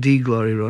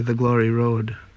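First: It is said in an exaggerated dialect pronunciation. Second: It is said in a standard, plain pronunciation. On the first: The speaker calls it wrong. "instead of saying" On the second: The speaker calls it right. "which is the correct way"

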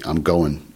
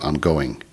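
First: The word ends in -in, without the g sound. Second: The word ends in -ing, with the g sound. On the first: A relaxed, casual way of speaking. "used IN instead of ING" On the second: A careful, formal way of speaking. "instead of ING"

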